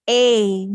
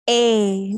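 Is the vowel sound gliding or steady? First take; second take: gliding; gliding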